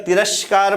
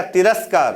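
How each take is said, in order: First: तिरस्कार said as "तिरश्कार", with a palatal sh sound; wrong palatal sh. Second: तिरस्कार said with a clean dental s, "तिरस्कार"; correct dental s. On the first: Teacher shows students the wrong reading, तिरस्कार with palatal sh. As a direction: read तिरस्कार with sh in place of s, as "तिरश्कार". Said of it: "तालब्य सा आ जाएगा". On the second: Teacher gives students the correct तिरस्कार with dental s. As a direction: say तिरस्कार with a crisp dental s sound. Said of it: "तो दंत सा होगा". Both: Shown as a demonstration.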